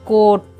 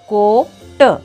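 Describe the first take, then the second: First: The two syllables are joined without pause. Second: The two syllables are split by a pause. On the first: "direct वाचायचं आहे" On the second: "वाचन शिकेपर्यंत"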